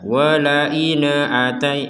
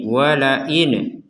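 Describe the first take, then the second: First: An extra vowel is added after the n. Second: The n is released with a bouncing echo. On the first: "harokat terdengar e ... nggak boleh seperti itu" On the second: "kalau ini dibaca dengan pantulan"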